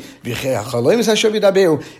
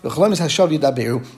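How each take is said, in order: First: It is said as a questioning phrase. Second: It is said as a plain statement. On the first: Dreams do not speak falsehood. "he read it differently. ... Is a chaloyim speaking badly" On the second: Dreams speak only falsehood. "That a chaloyim only speaks something that's not true"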